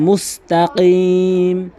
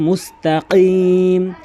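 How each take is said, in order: The two takes are said the same way.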